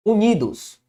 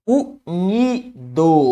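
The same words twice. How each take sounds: First: Said in the usual way. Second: "Unidos" drawn out very slowly, each syllable split, u-ni-dos. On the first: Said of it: "Ao separar unidos, eu tenho o". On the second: Shown as a demonstration. Teacher showing Marcelo how "Unidos" splits into syllables. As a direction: break "Unidos" into slow separate syllables. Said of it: "a sílaba tônica tá bem aqui".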